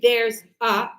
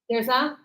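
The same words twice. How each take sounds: First: The 'a' is separated from 'there's'. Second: The 'a' is joined onto 'there's'. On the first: The speaker calls it wrong. "We don't say there's a" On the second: The speaker calls it right. "It seems like it's always connected to the previous word"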